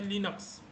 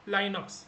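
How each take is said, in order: First: The first vowel is short, like in 'it'. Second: The first vowel sounds like 'eye'. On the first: "proper pronunciation होता है लिनक्स" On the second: "बहुत सारे लोग इसको लाइनक्स भी बोलते हैं"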